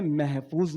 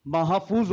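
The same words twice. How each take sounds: First: महफूज with an "e" sound, meh-fooz; wrong mehfooz. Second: महफूज with full open "a", ma-ha-fooz; correct mahfooz. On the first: Speaker showing the common Urdu mistake, meh-fooz. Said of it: "नहीं होता". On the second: Speaker correcting common Urdu error, open ma-ha-fooz. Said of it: "महफूज नहीं होता". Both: Shown as a demonstration.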